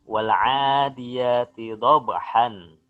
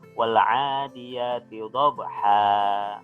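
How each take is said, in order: First: The last word ends with an n sound. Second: The last word ends in a long vowel. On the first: The reading continues without stopping. "Itu tulisannya ya" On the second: The reader stops at the end of the verse. "ketika kita berhenti bacanya di situ, maka kita bacanya dengan cara seperti ini"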